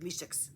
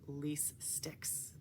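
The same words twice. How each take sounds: First: The two words are run together into one. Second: The two words are said carefully and separately. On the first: The speaker calls it wrong. "otherwise I run it together" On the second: The speaker calls it right. "I have to pronounce it really carefully"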